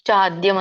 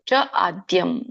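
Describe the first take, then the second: First: The two words are run together. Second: The two words are said separately. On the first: "ಚಾದ್ಯಂ ಅಂದ್ರೂ ನಡೆಯುತ್ತೆ" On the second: "ಅಲ್ಲಿ ನಾವು ಆ ಆದ್ಯಂ ಅಂತ ಹಚ್ಬೇಕು"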